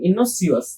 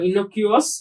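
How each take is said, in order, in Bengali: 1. মাঝের ব্যঞ্জনটি একটি s ধ্বনি। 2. মাঝের ব্যঞ্জনটি একটি k ধ্বনি।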